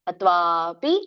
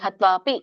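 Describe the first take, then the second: First: The vowel after 'tv' is long. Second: The vowel after 'tv' is short. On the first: The speaker calls it right. "ದೀರ್ಘ ಇದೆ" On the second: The speaker calls it wrong. "ಹತ್ವಾಪಿ ಅನ್ಬೇಡಿ, ತಪ್ಪು"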